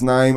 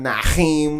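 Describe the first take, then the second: First: No h sound comes before the second syllable. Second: An h sound comes before the second syllable. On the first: The speaker calls it right. "It's Naeem" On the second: The speaker calls it wrong. "There is no H in my name. It's not Naheem"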